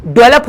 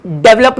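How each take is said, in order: First: डेवलप said as "delap" with the v slurred away; correct pronunciation. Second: डेवलप said with a hard v, as dev-lup; wrong pronunciation. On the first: Teacher giving learners the right form, clearly said. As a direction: say डेवलप the right way, smooth and short. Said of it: "डेवलप होता है". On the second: Teacher giving learners the common mistake, clearly said. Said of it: "डेवलप नहीं होता". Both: Shown as a demonstration.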